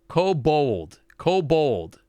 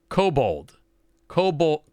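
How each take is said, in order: Both takes have the same delivery.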